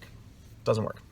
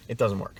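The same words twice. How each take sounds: First: Slow, soft, whispered repeat of It doesn't work. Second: Said in the usual way. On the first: Real, not acted. Speaker repeating his verdict to sales trainees, in a slow whisper. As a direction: breathe it out slowly as a quiet aside.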